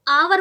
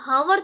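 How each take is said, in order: First: The word begins with a vowel sound. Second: The word begins with an h sound. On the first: The speaker calls it right. "एच क्या है यहाँ पर silent है" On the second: The speaker calls it wrong. "हावर तो पढ़ेंगे नहीं"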